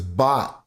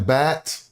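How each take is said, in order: First: The vowel sounds like 'ah' in 'father'. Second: The vowel sounds like 'a' in 'cat'. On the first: "number seven is Bot" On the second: "Why am I not saying Bat?"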